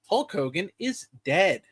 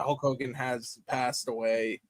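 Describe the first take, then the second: First: It is said in a cheerful tone. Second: It is said in a somber tone.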